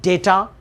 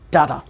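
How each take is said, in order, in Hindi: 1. पहला स्वर 'day' जैसा बोला जाता है। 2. पहला स्वर 'dah' जैसा बोला जाता है। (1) "ये दोनों तरीके से आप इसे पढ़ सकते हैं" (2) "ये दोनों तरीके से आप इसे पढ़ सकते हैं"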